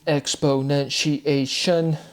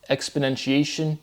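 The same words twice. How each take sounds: First: "exponentiation" very slow, each syllable separated; emphasized word form. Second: Said in the usual way. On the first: Shown as a demonstration. Speaker showing syllable count to viewers, "exponentiation" slowly broken up. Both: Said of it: "emphasizing the word forms".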